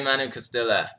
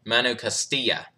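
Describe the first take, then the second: First: Castilla with an English L sound; anglicized name. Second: Castilla with a silent L, Spanish-style; proper name pronunciation. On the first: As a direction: say Castilla as "kuh-STILL-uh". First guess at viewer's name. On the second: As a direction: say Castilla as "kas-TEE-ya". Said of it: "is there a proper pronunciation". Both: Real, not acted.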